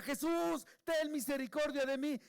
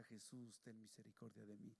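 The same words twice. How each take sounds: First: High, loud plea for mercy; loud imploring cry, pitched well up. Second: Very soft, low plea; low murmured prayer for mercy; hushed retelling. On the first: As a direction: shout it out like a blind beggar desperate to be heard. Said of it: "y gritaba". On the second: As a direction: recall the cry almost under the breath. Cry recalled in hushed reflection. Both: Retold or imitated.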